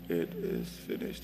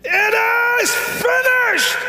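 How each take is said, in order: First: It is said weakly, like a whimper. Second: It is said loudly, like a victorious shout.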